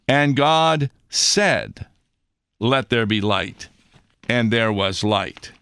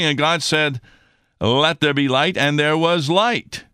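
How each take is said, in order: First: It is read a little more slowly. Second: It is read at a normal pace.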